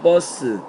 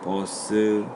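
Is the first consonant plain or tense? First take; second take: tense; plain. First: The first consonant is tense. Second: The first consonant is plain. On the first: This is how it is actually pronounced. "원래는 뭐 발음할 땐" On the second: This is how it is written. "예사소리로 쓴다"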